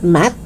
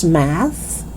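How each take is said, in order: First: "math" as "mat"; hard T closing "math". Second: "math" ending in soft TH; tongue out to close "math"; TH sound. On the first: Teacher showing learners the mistake, "math" with final T. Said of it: "It's not math". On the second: Teacher correcting learners, "math" with clear TH. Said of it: "It's math". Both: Shown as a demonstration.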